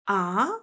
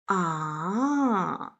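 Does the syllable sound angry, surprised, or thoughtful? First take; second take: surprised; thoughtful. First: It sounds like a surprised question. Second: The pitch falls, then rises, sounding thoughtful. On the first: "what? Surprising sound" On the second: "well, thinking sound. / falling down and then rising up"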